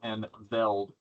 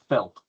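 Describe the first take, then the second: First: The word begins with a voiced V sound. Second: The word begins with a voiceless F sound. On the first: "depending on how you pronounce it" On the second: "or Felt, depending on how you pronounce it"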